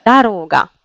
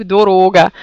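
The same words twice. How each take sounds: First: Daroga with first O reduced to A; city pronunciation. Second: Doroga with every O as full O, rustic; mock village Russian, do-ro-ga all Os round; village okanye. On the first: Shown as a demonstration. Teacher contrasts city speech with village doroga. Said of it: "c'est plutôt donc dans les villes". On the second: Teacher imitates Russian villagers for class, light mocking okanye. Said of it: "Donc, ils disent".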